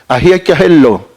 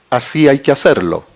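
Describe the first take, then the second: First: The s in 'así' is breathed like an h. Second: The s in 'así' is a clear hissed s.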